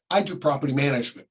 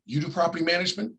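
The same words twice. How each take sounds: First: Said in the usual way. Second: Quick question rising on "property"; surprised question. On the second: Retold or imitated. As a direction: ask it fast and a bit higher, mildly surprised. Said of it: "No, I don't do property management".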